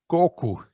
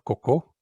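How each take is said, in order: First: It is said the Brazilian way. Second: It is said the European way.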